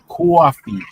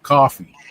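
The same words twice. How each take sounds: First: It is said with a New York accent, like a W. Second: It is said with a standard, non-New York accent. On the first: "People from New York say coffee" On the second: "instead of coffee"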